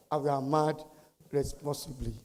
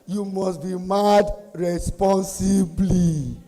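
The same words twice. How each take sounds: First: Softer, settled repeat of the slogan; subdued restatement. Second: Slow, drawn-out proclamation; emphatic slogan. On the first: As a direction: let the volume drop away to a quiet close. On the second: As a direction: stretch every word for the crowd. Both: Real, not acted.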